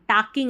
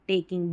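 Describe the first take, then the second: First: The first vowel is an 'ah' sound. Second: The first vowel is an 'ay' sound. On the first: The speaker calls it wrong. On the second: The speaker calls it right.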